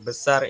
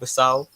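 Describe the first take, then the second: First: The word ends with a standard final r. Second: The word ends with an au sound. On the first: "kalau besar itu jadi" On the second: "logat uh, Melaka"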